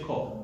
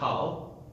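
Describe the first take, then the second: First: The vowel is a rounded 'oh' sound. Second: The vowel is an open 'ah' sound. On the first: The speaker calls it right. "we say kol" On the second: The speaker calls it wrong. "We don't say kal"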